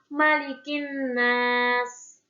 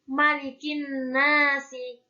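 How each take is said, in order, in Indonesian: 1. Frasa ini berakhir dengan konsonan mati. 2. Frasa ini berakhir dengan bunyi vokal tambahan. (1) "dibacanya kan malikin nas" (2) "bukan malikin nasi"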